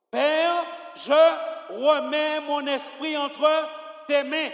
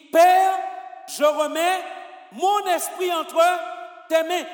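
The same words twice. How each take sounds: First: Said in the usual way. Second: Père shouted high, then slow, full-voiced words to tes mains; loud with conviction. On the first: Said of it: "avec plus de conviction". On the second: Shown as a demonstration. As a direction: proclaim it with full conviction, as a dying cry. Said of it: "quand il meurt, il dit".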